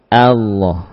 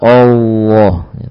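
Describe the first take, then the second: First: The opening hamzah is light and thin. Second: The opening hamzah is heavy and thick. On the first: The speaker calls it right. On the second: The speaker calls it wrong.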